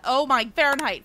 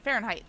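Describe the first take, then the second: First: Flustered answer. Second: Said in the usual way. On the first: Real, not acted. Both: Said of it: "What temperature does wild water boil at?".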